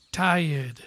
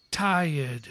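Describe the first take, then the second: No difference in how they are said.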